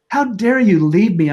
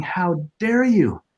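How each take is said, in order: First: Higher and louder, crying out at her; retold angry outburst. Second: Slow, higher, hurt accusation; a drawn-out wounded reproach; retold anger. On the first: Widower shouting at his late wife's grave, raw angry outcry. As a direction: let the anger burst through. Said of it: "and I was angry". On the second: Widower at his first wife's grave, slow aching reproach. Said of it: "And I was saying".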